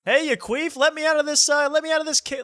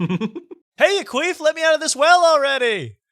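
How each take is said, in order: First: Very high, loud squealing woman in a well; screeching high voice, first try; high-pitched shriek. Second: Very high, louder squealing woman in a well; screeching high voice, second try; high-pitched shriek. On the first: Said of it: "I'll be like". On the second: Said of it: "Let's start again". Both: Retold or imitated.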